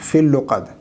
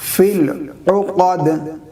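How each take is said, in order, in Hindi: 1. 'l' की आवाज़ सीधे 'uqad' में जुड़ जाती है। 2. 'uqad' की शुरुआत गले की रुकावट से होती है।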